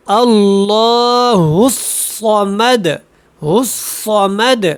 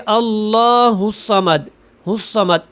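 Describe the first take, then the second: First: اللہ الصمد with heavy ص and full shadda; correct full shadda. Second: اللہ الصمد with the shadda cut short; wrong weak shadda. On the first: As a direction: give the shadda its full length. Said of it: "صاد کو ایک تو موٹا پڑھیں". (پوری شد کے ساتھ درست) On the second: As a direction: show the mistake to avoid. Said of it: "یہ غلط ہو گیا". (شد کم، غلط انداز) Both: Shown as a demonstration.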